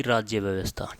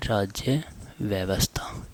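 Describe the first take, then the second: First: Said in the usual way. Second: राज्य व्यवस्था slowly, almost whispered; slow, hushed dictation. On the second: Shown as a demonstration. Teacher dictates term for writing. (धीमी, दबी आवाज़ में लिखवाते हुए)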